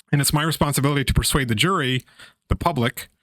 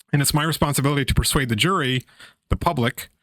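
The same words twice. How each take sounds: Both takes have the same delivery.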